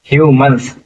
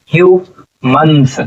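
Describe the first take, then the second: First: Said in the usual way. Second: humans slowly split into hue and मन्स; syllable by syllable. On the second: Shown as a demonstration. Teacher sounding out humans for students, slowly split in two. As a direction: sound out humans with a pause between its two parts. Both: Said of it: "क्या हो जाएगा".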